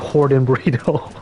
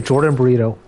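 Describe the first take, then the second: First: The name begins with a breathy H sound. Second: The name begins with a plain English J sound.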